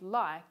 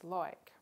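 First: The vowel sounds like eye. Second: The vowel sounds like oy. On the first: "indeed like" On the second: "is pronounced as loik"

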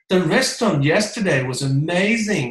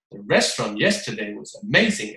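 First: It is lively, exaggerated and full of excitement. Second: Word stresses are hit hard and mechanically. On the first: It is performed with a real urge to express. The speaker calls it right. "李佳琦上身啊" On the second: It focuses on stress rules and sounds unnatural. The speaker calls it wrong. "你就会变得非常生硬"

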